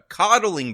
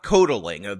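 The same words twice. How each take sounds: First: The word has its usual standard pronunciation. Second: The word has an altered, nonstandard pronunciation. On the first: The speaker calls it right. "the word that she's looking for is coddling" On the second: The speaker calls it wrong. "not coddling"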